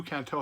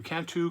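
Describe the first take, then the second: First: "Canto" ending in an oh sound; "Canto" with final vowel like "toe"; alternative pronunciation. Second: "Cantu" ending in an oo sound; "Cantu" with final vowel like "too"; alternative pronunciation. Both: Shown as a demonstration. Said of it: "however you wanna pronounce it".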